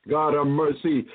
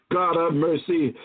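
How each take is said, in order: Both takes have the same delivery.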